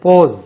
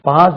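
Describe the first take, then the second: First: The vowel is a rounded 'aw' like paws. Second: The vowel is an open 'a' like pass. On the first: The speaker calls it right. "அது போஸ்" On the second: The speaker calls it wrong. "பாஸ் இல்லை"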